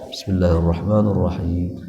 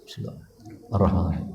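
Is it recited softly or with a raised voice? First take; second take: raised voice; softly. First: It is recited with a somewhat raised voice. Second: It is recited very softly, barely audible.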